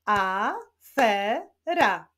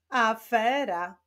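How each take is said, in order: First: "afera" slowly split into a, fe, ra; each syllable of "afera" alone, with pauses. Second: Said in the usual way. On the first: Shown as a demonstration. Teacher answers the riddle, "afera" syllable by syllable. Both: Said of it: "Zbudowany jest z trzech sylab".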